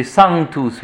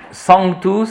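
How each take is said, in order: First: "sanctus" with pure A, then sounded N; un-nasalised sanctus. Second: "sanctus" with a French nasal AN; nasalised sanctus. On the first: Teacher gives class correct Latin, pure A. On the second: Teacher shows class the wrong Latin, nasalised sanctus. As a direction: say "sanctus" with the first vowel through the nose. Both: Shown as a demonstration. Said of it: "mais on nasalise pas".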